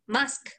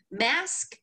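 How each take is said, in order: First: "Mask" with an open ah vowel; easy British mask. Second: "Mask" with a flat American short a; American pizzazz mask. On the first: Host showing the easier way to say it, British vowel. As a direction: say "Mask" as mahsk, broad British a. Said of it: "it's easier to say mask". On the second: Host mocking the harder American way, American vowel. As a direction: say "Mask" with the a of cat, American-style. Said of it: "you gotta put some pizzazz into it". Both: Shown as a demonstration.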